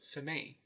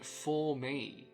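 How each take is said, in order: First: The vowels are reduced to schwa. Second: The vowels are said full. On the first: "They replaced all with the schwa sound" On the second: "They didn't even say"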